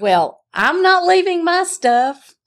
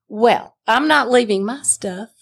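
First: Echoed back much higher and pitched up; mocking echo. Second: Said in the usual way. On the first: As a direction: throw his own words back at him, mockingly high. Wife mimics husband's words back.

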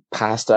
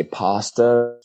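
First: "pasta" with a short flat A; "pasta" with the vowel of "cat"; Irish pronunciation. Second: "pasta" with a long open A; "pasta" with the vowel of "father"; Americanized pronunciation. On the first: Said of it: "wouldn't say". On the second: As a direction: say "pasta" as PAH-sta, the American way. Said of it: "I would say pasta". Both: Shown as a demonstration.

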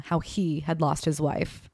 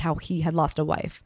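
First: Slow down and lean on "he", setting it against "we"; "he" weighted in a slow, deliberate phrase; stress on HE. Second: Said in the usual way. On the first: A narrator's reading. Daughter correcting whose loss it was, pointed stress on "he". Contrasts he with we.

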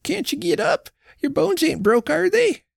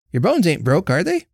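First: Put-on much higher anxious old wife's questions; worried old woman. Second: Lightly voiced sturdy Jenny, barely higher; brisk neighbour woman. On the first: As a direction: coax him to get up. Old wife keeps pleading. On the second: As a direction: ask him plainly and briskly. Jenny questions Jonas. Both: A narrator's reading.

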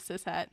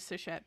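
First: Cishet said as sis-het, s then a clear h; standard cishet. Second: Cishet said as sish-et, with an sh sound; her own cishet. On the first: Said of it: "instead of cishet". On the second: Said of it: "cishet, that's how I say it". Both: Shown as a demonstration.

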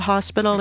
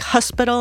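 First: Said in the usual way. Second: "hospital" said the Boston way, a little higher and louder; Boston pronunciation. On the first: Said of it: "instead of hospital". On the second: Shown as a demonstration. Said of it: "he would say, like, "hospital" instead of hospital".

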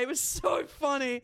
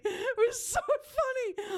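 First: Said in the usual way. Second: High, slow, wailing through laughter; laugh-crying. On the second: Acted. Host retelling meeting a fan, wailing with laughter. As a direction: drag it out, half crying with laughter.

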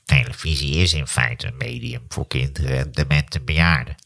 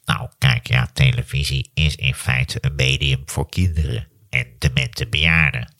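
First: Low nasal drone, too nasal at end; grumpy professor, nasal; Maarten van Rossum impression. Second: Low, slow nasal drone; a hint of grumpy professor; Maarten van Rossum impression. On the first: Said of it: "op het eind wordt hij te nasaal". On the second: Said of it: "ik doe hem verkeerd".

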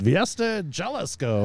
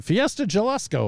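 First: Spanish-style name. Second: Said in the usual way. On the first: Shown as a demonstration. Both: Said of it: "or whatever it's called".

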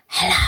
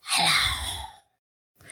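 First: Said in the usual way. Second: Breathy unvoiced whisper of hello. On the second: Shown as a demonstration. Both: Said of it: "just whisper hello with me".

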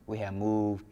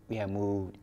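The two takes are said the same way.

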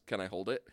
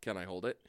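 First: Low, soft, emotionless deadpan; mock deadpan softer and lower; flat deadpan Adama. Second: Low, soft deadpan, no emotion; low and softer mock deadpan; flat deadpan Adama. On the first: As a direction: say it with no feeling, low. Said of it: "he says it exactly like that". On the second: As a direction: mumble it like a stone-faced admiral. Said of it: "He says, Can I hold it?".

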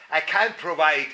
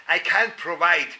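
No difference in how they are said.

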